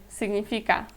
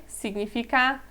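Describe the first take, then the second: The two takes are said the same way.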